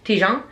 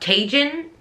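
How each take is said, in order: First: The name is said with French-style sounds. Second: The name is said with English-style sounds. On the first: "that's how it would be said in French" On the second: "some people call it Tajin"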